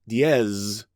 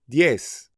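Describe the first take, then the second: First: The word ends with a buzzing z sound. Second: The word ends with a hissing s sound. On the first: The speaker calls it wrong. "Don't say diez" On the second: The speaker calls it right. "You should say diez. ... it definitely has an S sound"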